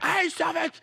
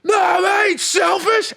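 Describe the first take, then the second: First: High, softened mock yell; small-volume imitation of an outburst; imitating a yell. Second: High, stretched mock yell; exaggerated high-pitched outburst; imitating an angry yell. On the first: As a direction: squeal it high but held back. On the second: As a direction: yell it high and drawn out, mimicking him. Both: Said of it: "you yelling at me".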